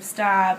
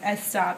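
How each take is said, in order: First: The word starts directly with the s sound. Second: An extra vowel sound comes before the s. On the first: The speaker calls it right. "instead of stop" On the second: The speaker calls it wrong. "I used to get made fun of because like my S's, or like I would say S stop"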